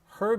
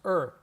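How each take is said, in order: First: The word starts with a pronounced H. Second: The H is dropped, leaving just 'er'. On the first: "her becomes er" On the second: "her becomes er. Just er"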